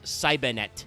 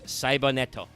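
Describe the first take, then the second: First: It is said with an English pronunciation. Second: It is said with a Japanese pronunciation.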